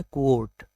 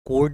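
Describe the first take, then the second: First: क्वोट with a w glide after k; correct pronunciation. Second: कोट with no w after the k; wrong pronunciation. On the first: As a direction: say क्वोट as "kwote". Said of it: "जो right है वो है". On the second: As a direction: say कोट like "coat". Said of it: "right pronunciation नहीं है". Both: Shown as a demonstration.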